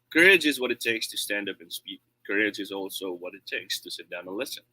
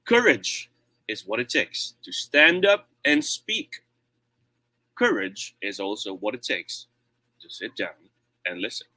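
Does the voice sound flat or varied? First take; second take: flat; varied. First: It is said in a flat, lazy voice. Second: It is said with varied volume and tone.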